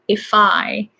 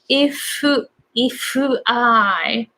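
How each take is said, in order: First: The two words are linked like one word. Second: An extra vowel is added after 'if'. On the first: The speaker calls it right. "as if it's just one word" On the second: The speaker calls it wrong. "a lot of Japanese people say if if I, adding extra vowel"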